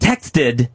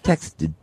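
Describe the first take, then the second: First: The final -ed syllable is fully pronounced. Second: The final -ed syllable is reduced to a light d. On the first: The speaker calls it wrong. "texted sounds awful" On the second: The speaker calls it right. "it needs the D sound, but not like the full thing"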